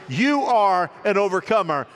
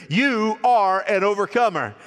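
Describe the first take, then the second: No difference in how they are said.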